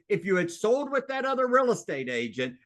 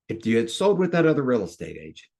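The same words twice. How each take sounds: First: It is said with high, excited energy. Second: It is said calmly, with lowered energy.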